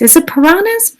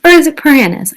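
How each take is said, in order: First: Piranhas said pər-AH-nəz, broad ah; pronunciation. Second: Piranhas said pər-AN-əs, flat a as in cat; pronunciation. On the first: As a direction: piranhas with a long ah in the middle. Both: Shown as a demonstration. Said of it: "I guess it's where you're from".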